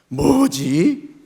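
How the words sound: It sounds discontented and complaining. The speaker is dissatisfied with something. "불만과 불평의 뭐지도 있습니다"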